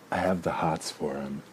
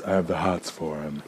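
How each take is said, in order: First: Said in the usual way. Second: Lightly campy drag queen voice. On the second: Shown as a demonstration. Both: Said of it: "that's my drag queen voice".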